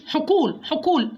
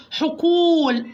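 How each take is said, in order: First: "حقول" said quickly with a short oo; long vowel cut short. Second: "حقول" with the oo stretched out; full long vowel. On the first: Teacher shows the mistake to avoid, short-vowelled "حقول". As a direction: rush "حقول", not holding the waw. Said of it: "ما أقولهوش حقول، حقول غلط". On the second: Teacher corrects the wrong take, long-held oo in "حقول". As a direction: give the waw in "حقول" its full length. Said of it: "أدي الحرف حقه في النطق". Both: Shown as a demonstration.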